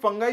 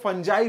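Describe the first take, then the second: First: The middle consonant is a hard g sound. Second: The middle consonant is a j sound. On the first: This is the speaker's own usual pronunciation. "फंगाई मैं बोल रहा हूं" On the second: Many other people pronounce it this way. "इसको फंजाई भी बहुत सारे लोग pronounce करते हैं"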